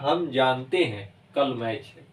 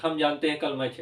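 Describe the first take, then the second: First: There is a pause after 'जानते हैं'. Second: It runs on without a pause after 'जानते हैं'. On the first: The speaker calls it right. "ये ऐसे होगा, ... इनमें रुकावट है" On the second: The speaker calls it wrong. "ऐसे नहीं बोला जाता"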